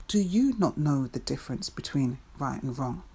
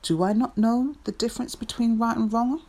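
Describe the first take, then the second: First: Turning the question outward, "you" stressed. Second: NOT lifted high and loud; questioning herself, "not" stressed high. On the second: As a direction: raise the pitch on "not" as a startled question. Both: Acted. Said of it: "I need clarity".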